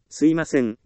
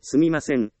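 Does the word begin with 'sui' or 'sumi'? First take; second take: sui; sumi. First: The word is said in its reduced form 'suimasen'. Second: The word is said in its full form 'sumimasen'. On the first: It sounds casual and not polite enough. The speaker calls it wrong. "すいません、ではなく" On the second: It sounds polite and sincere. The speaker calls it right. "すみません、と、言う"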